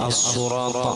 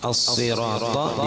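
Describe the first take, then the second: First: The vowel after the 's' is 'u'. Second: The vowel after the 's' is 'i'. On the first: The speaker calls it wrong. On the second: The speaker calls it right.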